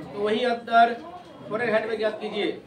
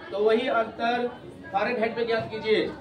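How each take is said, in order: No difference in how they are said.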